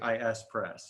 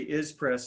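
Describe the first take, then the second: First: IS is spelled out as two letters. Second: IS is said as one word. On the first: This is used after the listener looks puzzled. "then I say I S press" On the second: This is the usual everyday way of saying the name. "usually I say is press"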